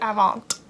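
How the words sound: It is pronounced with an English accent. "the English in me is like, oh, this is Avant"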